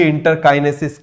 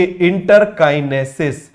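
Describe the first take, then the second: First: Said in the usual way. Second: interkinesis said slowly, each syllable drawn out for the class; teacher slowly dictating interkinesis; slow drilled term. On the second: Shown as a demonstration. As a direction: spell out interkinesis slowly so students repeat it. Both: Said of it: "क्या बोलेंगे?".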